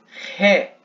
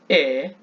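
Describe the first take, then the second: First: The vowel starts with a strong breathy sound. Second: The vowel starts with no strong breath. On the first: "E epsilon e eta com aspiração forte" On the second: "Epsilon e eta com aspiração branda"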